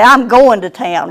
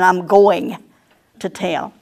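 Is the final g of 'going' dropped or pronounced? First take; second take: dropped; pronounced. First: The final g of going is dropped. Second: The final g of going is pronounced. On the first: "We're prone to drop the G on the end of our words. We'll say" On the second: "rather than"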